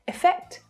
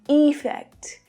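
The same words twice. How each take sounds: First: The first vowel is reduced and unclear. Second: The first vowel is full and clearly pronounced. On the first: The speaker calls it right. "They sound almost exactly the same when they're spoken naturally" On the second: The speaker calls it wrong. "you can hear the difference. But that's not how these words are spoken naturally"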